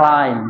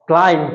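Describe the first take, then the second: First: "ক্লাইম্ব" with puffed k, silent b; more correct take. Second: "ক্লাইম্ব" with plain k and final b; usual local way. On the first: Teacher models the more correct way, aspirated k in "ক্লাইম্ব". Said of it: "আরো সঠিক করে বলি". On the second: Teacher shows how we usually say it, b sounded in "ক্লাইম্ব". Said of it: "আমরা বলে থাকি". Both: Shown as a demonstration.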